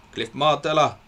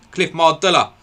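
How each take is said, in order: First: Said in the usual way. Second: Blurted out much higher and louder, finally got the name Mardella; triumphant recall. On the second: Real, not acted. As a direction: shout Cliff Mardella in relief at remembering it. Finally recalls forgotten player name.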